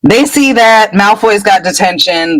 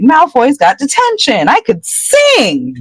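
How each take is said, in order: First: Said in the usual way. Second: Gleeful. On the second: Retold or imitated. Hermione dancing a jig.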